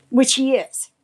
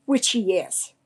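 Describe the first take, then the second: First: WHICH hit high and loud, a pointed agreement; emphatic agreement. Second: Said in the usual way. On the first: Real, not acted. Telling a friend about the neighbor, she stresses Which loudly. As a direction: stress Which, pitch jumps up on it.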